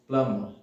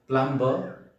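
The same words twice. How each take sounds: First: The B is silent. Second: The B is sounded. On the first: The speaker calls it right. "it's plumber because B is silent in this word" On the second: The speaker calls it wrong. "It's not plumber"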